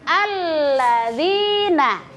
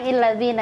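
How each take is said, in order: First: The word begins with an 'a' vowel. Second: The word begins with an 'i' vowel. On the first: The speaker calls it right. "jadi alladzina ya" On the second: The speaker calls it wrong. "jadi bukan illadzina ya"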